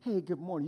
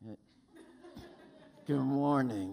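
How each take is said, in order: First: It is said in a cheerful, friendly tone. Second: It is said in a reluctant, grudging tone.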